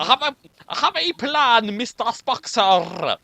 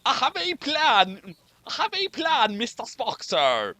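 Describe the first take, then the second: First: Rolled-R Scottish brogue, higher; second try at a Scottish engineer; thick Scottish accent. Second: Put-on a light stab at a thick Scottish accent; half-hearted Scottish engineer voice. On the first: Acted. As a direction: roll the R like Scotty. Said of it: "Yeah, that was good". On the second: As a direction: try out a Scotty brogue. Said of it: "can anyone do a very thick Scottish accent".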